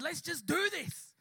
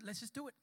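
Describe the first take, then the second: First: Slow, punchy rallying call; rallying resolve. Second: Softer, understated agreement; hushed resolve. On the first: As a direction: stretch it out to spur the group on. Retold rallying before the prayer. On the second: Retold quieter agreement before praying. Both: Retold or imitated.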